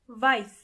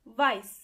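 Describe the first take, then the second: Both takes have the same delivery.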